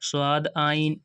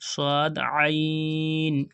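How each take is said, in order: First: The ain is said plainly, without throat sound. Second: The ain is said deep from the throat. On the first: The speaker calls it wrong. "ऐसे नहीं पढ़ना" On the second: The speaker calls it right. "आइन की आवाज़ दोस्तों एकदम साफ आनी चाहिए"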